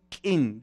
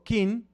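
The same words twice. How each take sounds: First: "kin" with the glottal k, meaning party; glottalized kin. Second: "kin" with a plain k and no glottal catch; kin without glottal. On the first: Teaching the audience the Tzeltal sound: "kin" with a glottal k. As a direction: catch the k in "kin" with a glottal stop. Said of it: "con el sonido particular de la lengua tzeltal". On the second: Showing the difference in Tzeltal: "kin" with a plain k, no glottal stop. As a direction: say "kin" with an ordinary k. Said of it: "si le quito la glotal". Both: Shown as a demonstration.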